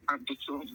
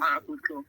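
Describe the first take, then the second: First: Whispered, much softer and lower. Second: Said in the usual way. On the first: Real, not acted. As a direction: breathe the words out. Same reply repeated, breathy.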